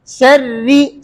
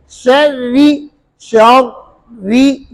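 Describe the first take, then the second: First: शर्री with a clean doubled ra; correct ra. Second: Very slow शर्री with the ra made thin; wrong ra. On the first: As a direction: say शर्री properly. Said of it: "सही है". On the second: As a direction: blur the ra in शर्री. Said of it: "ये गलत हुआ". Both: Shown as a demonstration.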